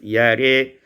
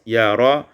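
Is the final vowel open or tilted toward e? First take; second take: tilted; open. First: The final vowel leans toward e. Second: The final vowel is an open a.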